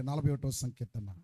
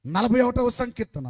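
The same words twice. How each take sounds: First: Said in the usual way. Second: "నలభై ఒకటవ సంకీర్తన" called out loud; louder call. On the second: Shown as a demonstration. (గట్టిగా "నలభై ఒకటవ సంకీర్తన") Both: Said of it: "please".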